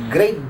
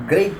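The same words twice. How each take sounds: The two takes are said the same way.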